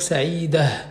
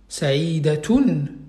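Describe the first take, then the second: First: The ending is said with an h sound. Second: The ending is said with a t sound. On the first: The speaker stops on the word. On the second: The word continues without a stop.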